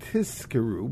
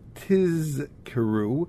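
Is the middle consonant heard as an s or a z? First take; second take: s; z. First: The middle consonant sounds like an s. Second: The middle consonant is a clear z sound. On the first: The speaker calls it wrong. "they should not think that he's saying tizkeru" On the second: The speaker calls it right. "the Zion is clearly enunciated as a Zion"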